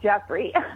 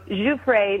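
First: The name is said as 'Jeffrey'. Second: The name is said as 'Giuffre'. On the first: The speaker calls it wrong. "not Jeffrey. Don't say that" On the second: The speaker calls it right. "her name is, you know, Giuffre"

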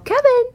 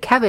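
First: The name is said in a higher-pitched voice. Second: The name is said in a normal speaking pitch. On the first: It is a call directed at the cat. "I do use a little bit higher register" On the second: It is just a plain mention of the name. "If I just say Kevin"

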